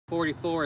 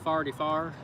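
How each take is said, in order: First: It is said with ordinary vowels. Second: It is said with broad local vowels.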